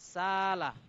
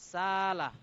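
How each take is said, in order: First: One long vowel replaces the glottal stop. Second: One long vowel replaces the glottal stop.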